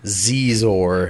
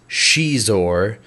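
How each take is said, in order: First: The name begins with a 'z' sound. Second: The name begins with an 'sh' sound. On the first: This is the popular fan pronunciation. "you're going to pronounce it Zizor" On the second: This is the official pronunciation. "The correct pronunciation is Shizor"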